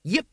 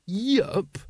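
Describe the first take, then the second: First: Short, cheerful confirmation; happy. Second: High-pitched questioning repeat; incredulous echo. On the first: Brother confirms to the Grand Master, happily. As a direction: confirm it happily, missing the disapproval. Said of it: "said Brother Dunnikin happily". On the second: Grand Master repeats a brother's casual answer, incredulous. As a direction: echo the word as if it cannot be right. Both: A narrator's reading.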